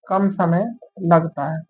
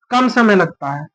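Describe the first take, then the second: First: "कम समय लगता है" said slowly and a bit lower, word by word; slow dictation. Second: Said in the usual way. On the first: Shown as a demonstration. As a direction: repeat it slowly so the class can write it down. (धीरे-धीरे लिखवाते हुए "कम समय लगता है")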